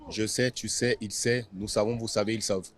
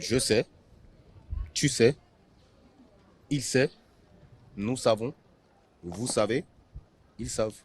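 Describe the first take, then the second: First: The conjugation is said fast. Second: The conjugation is said slowly.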